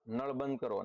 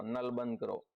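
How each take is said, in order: First: Said in the usual way. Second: નલ with a plain dental L in place of the retroflex ળ; Surati pron. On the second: Shown as a demonstration. Teacher showing how Surati speakers say it, with a dental L in નલ. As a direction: say નલ with a light dental L, not ળ. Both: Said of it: "અળનો લ".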